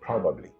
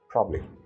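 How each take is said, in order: First: Every syllable of the word is said. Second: A middle syllable is dropped from the word. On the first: The speaker calls it right. "instead of" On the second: The speaker calls it wrong. "syllables and consonants are deleted"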